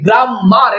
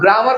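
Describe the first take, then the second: First: The m sound is doubled and held. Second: The m sound is single and short. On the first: The speaker calls it wrong. "এরকম পড়বে?" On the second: The speaker calls it right. "না গ্রামার পড়বে"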